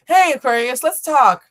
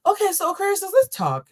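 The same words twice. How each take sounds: First: Loud, high hail; bold summons. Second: Very high, careful sweetness; put-on kind voice. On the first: Pretend. Reader opening a talk with Aquarius, bold summons. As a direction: call them in for a talk, loudly. First try at addressing Aquarius. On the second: Reader retrying a talk with Aquarius, put-on kind voice. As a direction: ease into it gently, pitched way up. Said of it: "I'm gonna use my kind voice".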